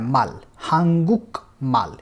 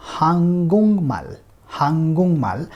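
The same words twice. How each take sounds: First: हांगुक माल with a hard K before M, slowly; unassimilated reading. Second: हांगुंगमाल with the K turned into NG; nasalized pronunciation. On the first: Teacher shows the reading without the nasal rule. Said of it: "ये pronunciation होना चाहिए technically इसका". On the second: Teacher models the correct हांगुंगमाल. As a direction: say हांगुंगमाल, NG flowing into M. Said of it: "the pronunciation of this word will be". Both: Shown as a demonstration.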